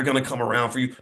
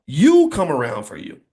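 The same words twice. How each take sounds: First: Said in the usual way. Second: You punched and louder; stress on You. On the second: Shown as a demonstration. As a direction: hit the first word, You, hard and let it fall. Others come around vs you do.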